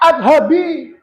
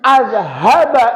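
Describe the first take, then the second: First: The word ends with an 'i' vowel. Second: The word ends with an 'a' vowel. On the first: The speaker calls it wrong. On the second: The speaker calls it right. "Yang pertama contohnya"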